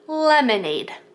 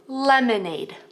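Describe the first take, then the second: First: The word begins with a clear L sound. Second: The same.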